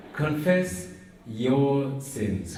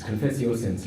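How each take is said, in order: First: "Confess" lifted, then "your" set apart and weighted; stress on YOUR. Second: Said in the usual way. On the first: Shown as a demonstration. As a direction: break before "your" and lean on it. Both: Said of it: "Don't confess other people's".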